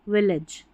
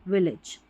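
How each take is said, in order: The two takes are said the same way.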